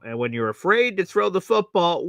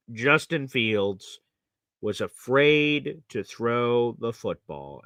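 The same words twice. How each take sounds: First: Said in the usual way. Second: Justin Fields and afraid drawn out slowly, each word weighed; slow emphatic verdict. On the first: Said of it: "Plain and simple". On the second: Real, not acted. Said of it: "Plain and simple, the God honest truth".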